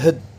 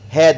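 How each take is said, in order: First: The word has a weak, reduced vowel. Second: The word has a full, clear vowel.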